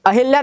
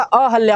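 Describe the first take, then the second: First: अहिल्या with hi in the middle; mistaken i vowel. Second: अहल्या with ha in the middle; corrected a vowel. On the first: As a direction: say अहिल्या as a-hil-ya. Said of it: "नहीं होता". (अहिल्या, हि में छोटी इ) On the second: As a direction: say अहल्या as a-hal-ya. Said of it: "छोटी की मात्रा नहीं होती". (अहल्या, ह बिना इ) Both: Shown as a demonstration.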